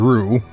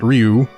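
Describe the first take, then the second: First: The word is said without a y-glide, as ru. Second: The word is said with a y-glide, as ryu. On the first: The speaker calls it wrong. "He called it Hyozan Ru" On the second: The speaker calls it right. "not Ryu"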